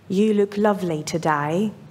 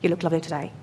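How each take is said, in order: First: The sentence is said at an unhurried pace. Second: The sentence is said quickly and rushed. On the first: The compliment is sincere. The speaker calls it right. "should not be rushed" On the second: The compliment is not believable. The speaker calls it wrong. "Nobody will believe you"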